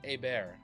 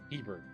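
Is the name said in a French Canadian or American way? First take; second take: French Canadian; American. First: It is said the French Canadian way. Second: It is said the American way.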